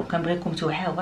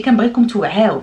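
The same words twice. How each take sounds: First: The same plea dropped much softer; soft repeat. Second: Louder, raised plea to the viewers; emphatic plea. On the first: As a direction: let it fall, a quiet echo of the plea. Same words repeated softly. (بهدوء وبصوت منخفض) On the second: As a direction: push it out, insisting they wake up. Urging viewers to be aware. (بإلحاح وبصوت مرتفع) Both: Real, not acted.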